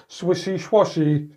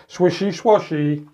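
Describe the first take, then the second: No difference in how they are said.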